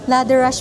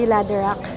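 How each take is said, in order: First: The name ends with an sh sound. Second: The name ends with a k sound. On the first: The speaker calls it right. "Ladder rush pala" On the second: The speaker calls it wrong. "hindi ladder rock"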